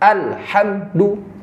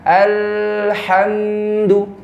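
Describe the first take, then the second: First: The consonant sound is abruptly cut off. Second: The consonant sound is drawn out long. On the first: "suaranya terputus" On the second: "berjalan jauh seperti rakhawah"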